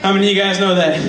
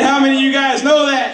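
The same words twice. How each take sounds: First: Said in the usual way. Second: High, loud call for a response; preacher's call. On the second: Shown as a demonstration. Comic repeats his question louder to rouse the audience. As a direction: demand an answer from the crowd, shouting. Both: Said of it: "I said".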